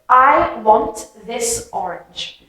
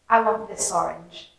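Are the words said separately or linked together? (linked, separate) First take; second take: separate; linked. First: Each word is said clearly and separately. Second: The words run together into one sound. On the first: "Very clear, you understand me" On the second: "If I say it normally, ... It just kind of all mumbles together"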